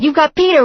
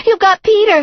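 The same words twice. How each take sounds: First: High and loud; first alarmed accusation; panicky accusation. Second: Much higher and louder, near a scream; shrieking accusation. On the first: Girlfriend accusing them of taking Peter, alarmed. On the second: Girlfriend screaming at the visitors, panic peaking. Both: A narrator's reading.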